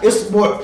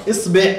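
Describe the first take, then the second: First: إصبع said as isbuʕ, with an i at the start and a u before the ʕ; isbuʕ, rounded u at the end; second vowel reading. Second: إصبع said as isbeʕ, with a short e before the ʕ; isbeʕ, front vowel at the end; third vowel reading. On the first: Teacher giving the second form, careful pronunciation. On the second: Teacher giving the third form, careful pronunciation. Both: Shown as a demonstration. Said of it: "بثلاث إطلاقات ويكون معناها واحد".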